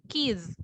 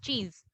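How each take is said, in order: First: The word begins with a k sound. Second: The word begins with a ch sound. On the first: The speaker calls it wrong. "we don't pronounce it as keys" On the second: The speaker calls it right. "It's cheese"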